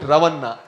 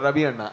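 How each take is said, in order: First: The name is said more strongly and forcefully. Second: The name is said softly and gently. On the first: "in Telugu, it Ravanna. It is a little more you know stronger" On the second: "in Mangalore Kannada, it is called Ravi Anna, and it is very soft"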